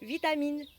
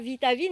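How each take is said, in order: First: The third syllable starts with an M sound. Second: The third syllable starts with a V sound. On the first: The speaker calls it right. "c'est vitamine" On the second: The speaker calls it wrong. "C'est pas vitavine"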